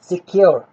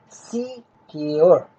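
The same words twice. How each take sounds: First: Said in the usual way. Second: सिक्योर drawn out slowly in two separate parts; सिक्योर broken into two long syllables; split into syllables. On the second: Shown as a demonstration. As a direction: say सिक्योर slowly as "see", then "kyor". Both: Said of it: "मैंने separate किया है syllables को".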